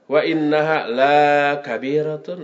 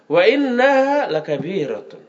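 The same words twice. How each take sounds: First: The vowel in 'la' is drawn out long. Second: The vowel in 'la' is kept short. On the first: Prayer is not heavy. The speaker calls it wrong. "Kalau dibaca panjang, jadi terbalik artinya" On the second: Prayer is truly heavy. The speaker calls it right. "Jangan salah baca"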